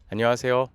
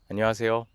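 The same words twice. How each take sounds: No difference in how they are said.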